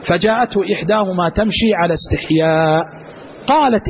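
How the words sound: The pause comes after the word استحياء. She walked with modesty. "هذا وقف. ... فعلى الوقف الأول هي جاءت تمشي على استحياء"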